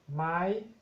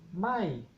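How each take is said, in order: First: It is said on a high tone. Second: It is said on a falling tone. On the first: It marks a question. "Tono alto" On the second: It means no. "Tono decreciente"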